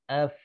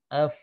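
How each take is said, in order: No difference in how they are said.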